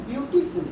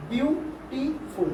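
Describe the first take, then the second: First: Said in the usual way. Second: BEAUTIFUL (beautiful) drawn out slowly, a pause between each syllable. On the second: Shown as a demonstration. Teacher shows pupils the syllables in a word, slowly broken up. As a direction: break "beautiful" into three slow parts: বিউ, টি, ফুল. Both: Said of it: "তখন কিরকম উচ্চারণ করছো?".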